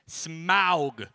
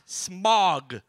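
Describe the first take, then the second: First: The vowel sounds like 'ow'. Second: The vowel sounds like 'ah'. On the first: The speaker calls it right. "Say that with me" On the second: The speaker calls it wrong. "Not Smog"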